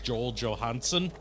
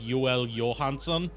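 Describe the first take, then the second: First: The name is pronounced with English sounds. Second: The name is pronounced with Swedish sounds. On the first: The speaker calls it wrong. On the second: The speaker calls it right.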